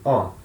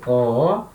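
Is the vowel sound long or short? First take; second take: short; long. First: The vowel is cut short. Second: The vowel is held long. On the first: "Ômicron, som breve" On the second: "Então ômega, som longo"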